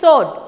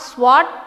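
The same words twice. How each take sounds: First: The W sound is silent in the word. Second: The W sound is pronounced in the word. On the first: The speaker calls it right. "it is sword. W is silent" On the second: The speaker calls it wrong. "the pronunciation of S W O R D is not sword"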